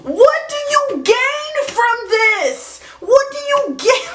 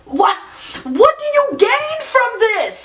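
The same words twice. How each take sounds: First: Slow, high, drawn-out disbelief; genuinely baffled question, pitched up; exasperated. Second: Exasperated. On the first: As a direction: stretch it out like you truly can't believe it. Punchline repeated, drawn out, high. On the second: Stand-up punchline, exasperated question. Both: Acted.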